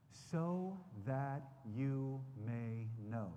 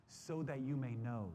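First: Each word drawn out very slowly; slow, deliberate repeat. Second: Said in the usual way. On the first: Shown as a demonstration. Preacher repeating the verse to his listeners, very slowly. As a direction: let the phrase sink in, word by word. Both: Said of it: "I want you to look at verse eighteen".

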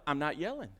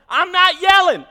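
First: Low, soft denial; retold reply kept quiet and low; not yelling. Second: High, very loud comic shout; full yell. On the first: Husband answering his wife in an argument, quietly at first. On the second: Retold or imitated. Husband insisting to his wife he isn't yelling, shouting. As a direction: bellow the denial at the top of the voice. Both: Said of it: "Stop yelling".

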